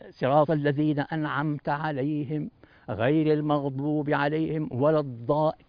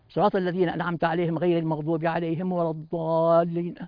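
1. تُقال الكلمات ببطء ومع مدّ. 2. تُقال الكلمات بسرعة دون مدّ. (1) "تمدد الكلمات" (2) "ما عندك وقت للاستحضار بهذه السرعة"

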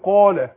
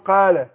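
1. المد مفخَّم وممتلئ. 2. المد مرقَّق ورفيع. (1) "لو قلت قال" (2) "ما ينفعش أقول قال"

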